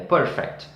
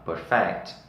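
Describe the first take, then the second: First: The stress is on the first syllable. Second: The stress is on the last syllable. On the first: It is the adjective. "tem a mesma escrita" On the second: It is the verb meaning to improve. "E aperfeiçoar"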